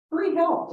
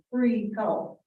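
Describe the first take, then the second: First: Much higher, punched disbelief on Free help; sarcastic disbelief at free help being refused; incredulous. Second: Said in the usual way. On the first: Real, not acted. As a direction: echo Free help as if it can't be real. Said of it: "does that exist these days?". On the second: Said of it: "Free help, does that exist".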